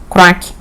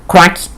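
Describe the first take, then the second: Both takes have the same delivery.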